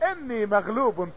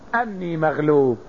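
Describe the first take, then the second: First: The first word begins with an 'i' vowel. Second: The first word begins with an 'a' vowel. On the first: He prayed, saying directly that he was overcome. "أما على قراءة كسر الهمزة" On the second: He prayed, asking help because he was overcome. "هذا على قراءة فتح الهمزة"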